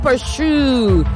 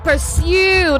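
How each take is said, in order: First: The word is said with an h sound. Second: The word is said without an h sound. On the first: The speaker calls it wrong. "not pursue. There is no H anywhere in that word" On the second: The speaker calls it right. "There is no H anywhere in that word"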